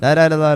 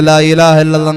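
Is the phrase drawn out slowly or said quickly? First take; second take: quickly; drawn out. First: It is said quickly, like a lottery seller. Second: It is drawn out slowly with a melody.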